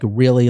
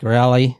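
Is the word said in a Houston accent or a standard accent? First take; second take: standard; Houston. First: The word is said with a standard vowel. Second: The word is said with a Houston vowel. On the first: "so they say like really" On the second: "like rally"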